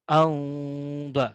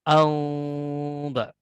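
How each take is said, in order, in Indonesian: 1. Sengau dibuat dengan bibir sedikit renggang. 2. Sengau dibuat dengan bibir sedikit renggang.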